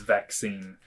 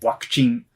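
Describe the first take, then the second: First: It begins with a v sound, English-style. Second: It begins with a w sound, Japanese-style.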